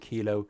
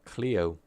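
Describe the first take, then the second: First: The name is said as Kilo. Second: The name is said as Cleo. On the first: The speaker calls it wrong. "always pronounce his name incorrectly" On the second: The speaker calls it right. "It's actually pronounced"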